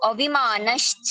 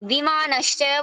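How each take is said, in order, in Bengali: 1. শব্দটি একটি যুক্ত 'a' স্বর দিয়ে শুরু হয়। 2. শব্দটি 'a' স্বর ছাড়াই সরাসরি শুরু হয়। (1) "আমি অ উচ্চারণ করতে পারবো" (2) "দম্ভ দর্প বিমানশ্চ বলতে পারবো"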